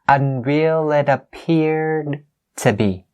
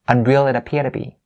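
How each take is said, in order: First: The d in 'appeared' is clearly pronounced. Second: The d in 'appeared' is dropped, said faster. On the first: "Maddie says it as unreal it appeared to be" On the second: "It's faster for me"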